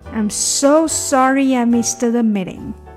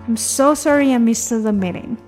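First: The sentence is read at a slow pace. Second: The sentence is read at a fast pace.

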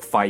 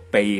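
First: The syllable is pronounced 'fai'. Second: The syllable is pronounced 'bei'. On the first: The speaker calls it wrong. "唔系读肺嘅" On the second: The speaker calls it right. "用作姓氏嘅时候咧系读鼻嘅"

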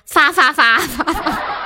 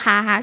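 First: It is said with an f sound, Sichuan style. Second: It is said with an h sound, standard Mandarin.

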